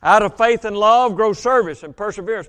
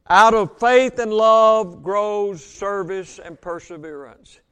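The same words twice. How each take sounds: First: Said in the usual way. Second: Slow, every word weighted; deliberate emphatic restatement; slow emphatic repeat. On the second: Shown as a demonstration. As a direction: drive each word home slowly. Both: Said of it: "repeated for emphasis".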